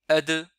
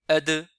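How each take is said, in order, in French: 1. La consonne finale est relâchée avec un rebond résonnant. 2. La consonne finale est relâchée avec un rebond résonnant.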